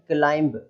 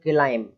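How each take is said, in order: First: A b sound is heard at the end. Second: The word ends on m, no b. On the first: The speaker calls it wrong. "बी लगा देते हैं" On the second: The speaker calls it right. "केवल इतना ही पढ़ेंगे"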